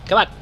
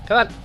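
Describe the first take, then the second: No difference in how they are said.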